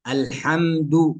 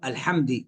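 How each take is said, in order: First: The final d is followed by u. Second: The final d is followed by i. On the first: The speaker calls it right. "الصحيح" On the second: The speaker calls it wrong. "أو بكسرها"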